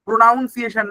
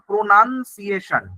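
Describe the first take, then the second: First: প্রোনাউন্সিয়েশন said with "nown", as in pronounce; wrong pronunciation. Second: প্রোনাউন্সিয়েশন said slowly as pro-nun-ciation, short "nun"; teacher's corrected প্রোনাউন্সিয়েশন, slow and careful; correct pronunciation. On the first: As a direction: wrongly say প্রোনাউন্সিয়েশন as pro-NOUN-ciation. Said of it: "প্রোনাউন্সিয়েশন না". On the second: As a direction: model প্রোনাউন্সিয়েশন carefully, slower, "nun" not "noun". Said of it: "প্রোনাউন্সিয়েশন না, প্রোনাউন্সিয়েশন". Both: Shown as a demonstration.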